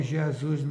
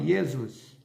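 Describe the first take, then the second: First: Said in the usual way. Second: "Jesus" with a Y sound in place of J; Hebrew-style pronunciation. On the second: Shown as a demonstration. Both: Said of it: "lá eles falam Jesus".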